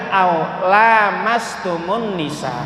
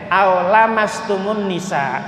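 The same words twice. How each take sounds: First: The la syllable has a long vowel. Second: The la syllable has a short vowel. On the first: "Lanya dibaca panjang" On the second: "lanya dibaca pendek"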